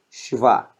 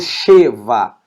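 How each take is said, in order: First: The first vowel is nearly dropped. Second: The first vowel is fully pronounced. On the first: The speaker calls it right. "eu pronuncio praticamente o som do S H" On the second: The speaker calls it wrong. "Eu não falo Sheva"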